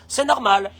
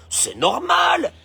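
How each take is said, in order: First: Said in the usual way. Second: Entitled shrug. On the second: Pretend. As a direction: stretch it out like it's obvious. Voicing entitled mindset.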